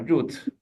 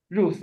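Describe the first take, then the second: First: Ruth said as "root"; Hebrew pronunciation. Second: Ruth said the English way, ending in th; English pronunciation. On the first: Teacher giving the name in Hebrew, Hebrew pronunciation. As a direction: end Ruth on a hard t. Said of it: "Ruth is, uh, Ruth". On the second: Teacher quoting the English name, English pronunciation. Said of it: "uh, Ruth". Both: Shown as a demonstration.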